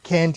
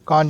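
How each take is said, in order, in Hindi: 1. इसमें सपाट 'a' स्वर है, अमेरिकन स्टाइल में। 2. इसमें चौड़ा 'ah' स्वर है, ब्रिटिश स्टाइल में। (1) "कैंट यानी अमेरिकन" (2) "कांट यानी ब्रिटिश"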